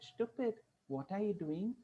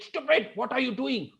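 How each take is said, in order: First: It is said in a playful, affectionate tone. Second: It is said in an angry, annoyed tone. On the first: She is teasing someone she loves. "her good boyfriend came and he caught her hands from the back" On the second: A stranger has hurt her and she is upset. "there was a man who actually stamped on her, and she said"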